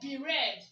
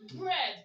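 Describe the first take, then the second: First: The first letter is said by its name. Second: The first letter is said as a sound. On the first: The speaker calls it wrong. "do you say be red?" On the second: The speaker calls it right. "You say what? Bread, right?"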